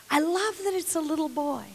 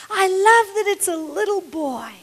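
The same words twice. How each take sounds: First: Said in the usual way. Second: "love" leaned on, voice up and fuller; stress on love. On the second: Real, not acted. Preacher savouring the story, stressing "love". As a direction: lean into "love" with delight.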